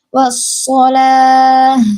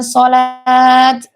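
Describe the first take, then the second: First: The word ends with an h sound. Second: The word ends with a t sound. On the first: The speaker calls it right. "dibaca seperti menjadi huruf ha" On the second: The speaker calls it wrong. "bukan sholat"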